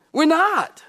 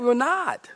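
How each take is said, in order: First: "We're not." higher and louder, punched; emphatic repeat. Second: Said in the usual way. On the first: Acted. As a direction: hammer the point home.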